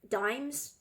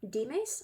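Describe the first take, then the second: First: The name is pronounced with American English sounds. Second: The name is pronounced with Spanish sounds. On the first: "would be like the American English pronunciation" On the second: "that's like the Spanish pronunciation"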